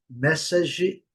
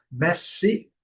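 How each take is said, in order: First: Message said the Brazilian way, mɛsaʒi with a final i; pronúncia errada de message; Brazilian-style message. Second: Message said as MES-idge, short i, no final vowel; corrected English message. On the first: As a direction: read message as mess-a-zhee, Portuguese style. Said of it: "a tendência é dizermos". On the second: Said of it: "Então, vamos corrigir". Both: Shown as a demonstration.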